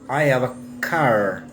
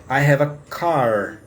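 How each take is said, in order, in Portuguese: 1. O r no final de car é pronunciado. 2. O r no final de car é pronunciado.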